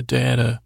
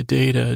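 First: "data" said as DAH-ta; first vowel as "dah". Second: "data" said as DAY-ta; first vowel as "day". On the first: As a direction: say "data" with an open A, as in "father". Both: Shown as a demonstration. Tries two pronunciations of data.

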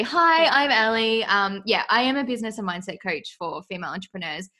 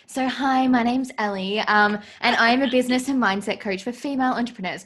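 First: Said in the usual way. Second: Upbeat broadcast intro read; news reporter voice. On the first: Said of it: "All right, seriously". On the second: Pretend. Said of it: "my news reporter voice".

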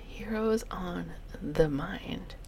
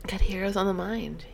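First: Heroes on the Mind, slow and hushed; whispered. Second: Said in the usual way. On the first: Shown as a demonstration. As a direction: breathe it out slowly. Repeating the title in a whisper.

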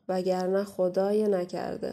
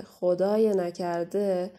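First: Drawn-out warning with خدای held long; a slow, heavy caution. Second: خدای نکرده stretched out, each word slow and heavy; very slow ominous warning. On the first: (هشدار آرام و کشیده) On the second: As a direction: let the threat sink in slowly. (هشدار خیلی کند و تهدیدآمیز) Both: Acted. Warning repeated slower.

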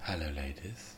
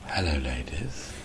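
First: Deadpan opener. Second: Low, soft and slow; almost whispered. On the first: Shown as a demonstration. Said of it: "I just say". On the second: Retold or imitated. Leaning into the mic, almost whispering to the crowd. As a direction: lean into the mic and breathe it. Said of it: "almost whispered".

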